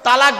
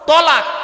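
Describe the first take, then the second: First: The first t sound is a light, plain t. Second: The first t sound is a heavy, emphatic t. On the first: It means joining together. The speaker calls it wrong. "শব্দটা কিন্তু তালাক নয়, খবরদার এটা বলবেন না।" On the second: It means divorce. The speaker calls it right. "শব্দটা হলো তলাক। ... আরবি উচ্চারণ কি? তোয়েল আমালিফ ক।"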